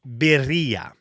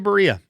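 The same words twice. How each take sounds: First: The word has a careful Spanish pronunciation. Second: The word has a lazy, anglicized pronunciation. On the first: "it is birria" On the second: "sometimes I just say birria because I, it's easy and I'm getting lazy with my Spanish"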